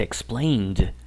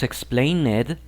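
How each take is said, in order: First: EXPLAINED in two syllables, ending "-nd"; correct pronunciation demo. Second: EXPLAINED with an added syllable, "ex-plain-ED"; wrong pronunciation demo. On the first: Teacher correcting the mistake, explained as two-syllable "ex-plaind". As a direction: say "explained" slowly, closing straight onto the d. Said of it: "se dice explained". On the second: Teacher showing what not to say, explained as "explain-ed". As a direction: say "explained" slowly in three syllables, sounding the "ed". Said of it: "No decimos explained". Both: Shown as a demonstration.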